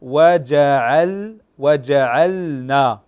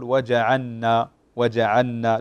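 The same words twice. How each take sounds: First: وجعلنا slow and loud, lam sounded clearly before nun; وجعلنا with a clear, separate lam; correct, clear lam. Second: وجعلنا with the lam swallowed into the nun; وجعلنا said with no audible lam; wrong, merged lam. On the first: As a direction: stretch وجعلنا so the lam is heard distinctly. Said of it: "الصحيح". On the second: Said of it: "لا تسمع اللام". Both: Shown as a demonstration.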